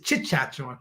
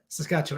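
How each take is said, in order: First: The word begins with a ch sound. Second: The word begins with an s sound. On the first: The speaker calls it wrong. "I used to say Chitchatchewan" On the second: The speaker calls it right. "I couldn't get the S, the S, Saskatchewan"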